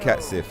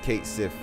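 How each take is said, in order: First: The first word has a short 'a' vowel. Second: The first word has a long 'ay' vowel. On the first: "I hear most people calling him Cat Sith" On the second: "So they do pronounce the I. They call him Kate Sith"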